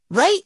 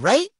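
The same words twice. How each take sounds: First: "Right?" shooting up high; insistent questioning. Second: Said in the usual way. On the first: Real, not acted. Storyteller seeks backup on the moan, high insistent "Right?". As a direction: push "Right?" up sharply for agreement. Repeats it, pressing for agreement.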